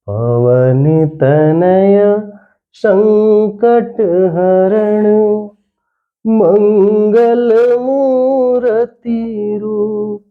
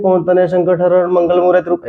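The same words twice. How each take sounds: First: Slow sung recitation, climbing higher on मंगल मूर्ति रूप; chanted, right way to recite the doha, melodic and drawn out; chanted verse. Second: Verse rattled off fast with no pauses; wrong way to read a couplet, all in one breath; rushed reading. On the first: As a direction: sing the couplet slowly, pausing after तनय. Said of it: "इसको ऐसे पढ़ेंगे". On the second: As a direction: run the line straight through, fast and flat. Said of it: "ऐसे तो पढ़ते नहीं है". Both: Shown as a demonstration.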